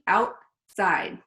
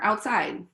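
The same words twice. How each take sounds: First: The word is said slowly with clear mouth movements. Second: The word is said quickly in an ordinary way. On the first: "we say them very clearly" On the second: "If I was talking to you simply"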